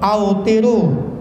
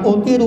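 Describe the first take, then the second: First: The word begins with an 'au' sound. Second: The word begins with a plain 'u' sound. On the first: The speaker calls it right. "bacanya yang betul" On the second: The speaker calls it wrong. "bukan utiru"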